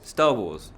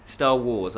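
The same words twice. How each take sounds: First: Star hit louder, Wars falling; stress on Star. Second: Star Wars with Wars leaned on; stress on wars. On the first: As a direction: punch the word Star. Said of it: "I say Star Wars wrongly". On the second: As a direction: push the word Wars. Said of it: "I emphasised the wars". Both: Shown as a demonstration.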